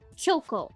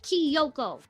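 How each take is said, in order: First: No extra 'ee' sound follows the K. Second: An extra 'ee' sound follows the K. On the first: The speaker calls it right. "You pronounce it Kyoko" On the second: The speaker calls it wrong. "not Kyoko. There's no I there"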